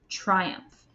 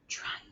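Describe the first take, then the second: First: The word is said in a plain, normal voice. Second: The word is said in a quiet whisper. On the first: "Say the word triumph with me" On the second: "Now say it in a whisper voice"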